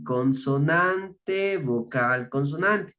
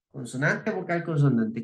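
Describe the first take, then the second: First: Consonante stretched out very slowly, then vocal, consonante; slow, spaced-out pattern. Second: Said in the usual way. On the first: Shown as a demonstration. Teacher laying out the spelling rule for adjectives, slow and spaced out. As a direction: draw out CONSONANTE, separate each term.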